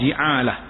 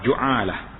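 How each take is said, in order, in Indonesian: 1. Vokal pertama adalah bunyi i. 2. Vokal pertama adalah bunyi u. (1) "Boleh baca baris bawah" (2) "Dan baris hadapan"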